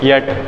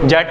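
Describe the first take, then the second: First: The word begins with a 'y' sound. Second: The word begins with a 'j' sound. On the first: The speaker calls it right. "य बोल के एट" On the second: The speaker calls it wrong. "जेट नहीं"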